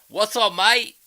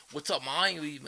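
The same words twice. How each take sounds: First: Very high, loud mock-Aussie greeting; bad Australian accent. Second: Lightly imitated English accent that sounds Australian; hint of Aussie-like English accent, slightly raised pitch. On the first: Imagining greeting Australians over there, bad Australian accent. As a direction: overdo a fake Australian accent, loud and pitched up. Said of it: "I suck at an Australian accent". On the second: Imitating a friend's greeting, light Australian-sounding English accent. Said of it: "sounds like he's Australian is [name]".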